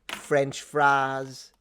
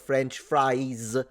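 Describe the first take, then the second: First: It is said with a Southern drawl. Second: It is said in a standard accent. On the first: This is how someone else said it. "she said French fries" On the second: This is the expected way to say it. "instead of French fries"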